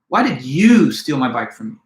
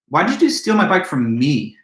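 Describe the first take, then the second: First: The word you carries the main stress. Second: The word me carries the main stress. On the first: Of all people, this person was the unexpected thief. "with the accent or emphasis placed on you" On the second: Of all victims, this particular person was targeted. "but me?"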